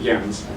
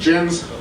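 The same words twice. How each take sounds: First: The name is said with Danish pronunciation. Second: The name is said with American pronunciation. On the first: The speaker calls it right. "in Denmark, they pronounce it Jens" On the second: The speaker calls it wrong. "my parents named me incorrectly"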